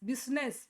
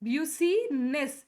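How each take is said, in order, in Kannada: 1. ಇದು 'biz' ಎಂದು ಶುರುವಾಗುತ್ತದೆ ಮತ್ತು ಎರಡು ಉಚ್ಚಾರಾಂಶಗಳಿವೆ. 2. ಇದು 'byoo' ಎಂದು ಶುರುವಾಗುತ್ತದೆ ಮತ್ತು ಮೂರು ಉಚ್ಚಾರಾಂಶಗಳಿವೆ. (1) "ಬಿಸ್ನೆಸ್ ಅಂತಾರೆ" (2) "ನೋ, ದಿಸ್ ಇಸ್ ರಾಂಗ್"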